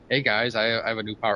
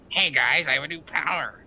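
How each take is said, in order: First: It is said in his natural voice. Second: It is said in a put-on character voice.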